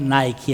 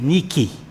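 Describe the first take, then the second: First: It is said the common brand-name way. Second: It is said the original Greek way. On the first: The speaker calls it wrong. "não é Nike" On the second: The speaker calls it right. "é Nike. A palavra grega Nike"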